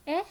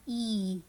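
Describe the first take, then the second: First: Brief rising "eh"; short E sound. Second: "e" held as "ee"; long E sound. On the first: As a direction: keep "eh" short, as a question. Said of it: "The short sound". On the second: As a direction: stretch "e" out. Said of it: "or the long sound". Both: Shown as a demonstration.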